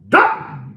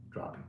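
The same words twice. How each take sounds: First: High loud yell of the word; shouted. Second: Said in the usual way. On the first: Real, not acted. Dealer shouting that watch prices keep dropping, loud.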